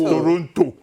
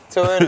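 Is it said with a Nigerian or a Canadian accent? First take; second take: Nigerian; Canadian. First: It is said with a Nigerian village accent. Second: It is said with a Canadian accent.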